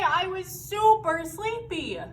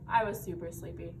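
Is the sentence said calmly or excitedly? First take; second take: excitedly; calmly. First: It is said in a strong, excited voice. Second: It is said in a plain, calm voice. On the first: The feeling is strong and deserves an exclamation point. "we say that when we're like, ah!" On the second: It is a plain statement. "rather than saying"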